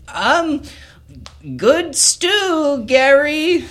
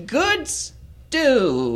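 First: High, loud squeaky gnome voice; nervous gnome. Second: High gnome voice, softer, trailing off; quieter gnome repeat. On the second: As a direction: mumble the compliment once more. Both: Acted. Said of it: "Barry, pipes up and says".

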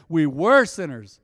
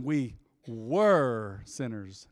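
First: Loud call-out with "were" stretched; rallying call. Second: "were" drawn out long and low; stress on WERE. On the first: Shown as a demonstration. Preacher leading the congregation's response, loud and slow. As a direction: belt it out slowly for others to repeat. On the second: Real, not acted. Preacher making his first point, "were" heavily drawn out. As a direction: stretch out "were" slowly, at a lower pitch. Stresses past tense of sinners.

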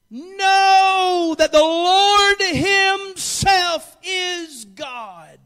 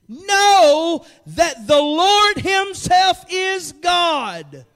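First: "Lord" shouted, very slow and drawn; preached shout. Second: "Lord" drawn out slow; preached slowly. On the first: Pastor proclaiming the psalm to the church, slow shout. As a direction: cry "Lord" out long and loud. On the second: Pastor reading the psalm slowly to the church. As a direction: hold "Lord" long and heavy. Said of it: "repeated louder". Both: Shown as a demonstration.

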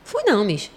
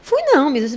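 First: A lightly voiced pupil simply saying no; plain denial. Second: Higher, louder pupil insisting he never went; insistent denial. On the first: Pupil answering the teacher about the Moon, plain denial. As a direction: let the kid deny it plainly. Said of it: "Fulaninho, tu foi pra Lua semana passada?". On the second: Retold or imitated. Pupil insisting to the teacher he never went, higher louder denial. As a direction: push back hard, indignant kid. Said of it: "Eu vi, você foi pra Lua".

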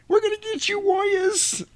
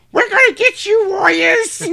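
First: Very high, thin squeaky voice; a tiny man trying to sound tough; squeaky pipsqueak voice. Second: Very high, tiny squeaky voice; high-pitched pipsqueak taunt. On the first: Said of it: "he's a little pipsqueak". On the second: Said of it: "Totally not the voice you would expect". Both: Retold or imitated.

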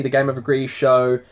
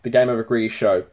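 First: Said in the usual way. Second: Talking through a burp; words pushed out on a burp. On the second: Real, not acted. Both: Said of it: "having a little burp here".

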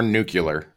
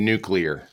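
First: "nuclear" with a kyuh in the middle; "nucular" mispronunciation. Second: Said in the usual way. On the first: Shown as a demonstration. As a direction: say "nuclear" as NOO-kyuh-ler. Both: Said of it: "It's nuclear or nuclear".

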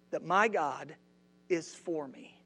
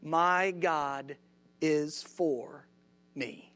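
First: Said in the usual way. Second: Each phrase set apart by pauses; My God... is for... me, spaced out; preacher's key line with long pauses; emphatic slow statement. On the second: Shown as a demonstration. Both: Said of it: "write this down".

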